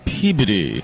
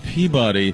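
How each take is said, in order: First: Peabody is said in the local way. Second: Peabody is said in the outsider way. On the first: The speaker sounds like a local. The speaker calls it right. "Boys, it's Peabody" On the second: The speaker sounds like an outsider. The speaker calls it wrong. "If you say Peabody, people aren't going to think you're local"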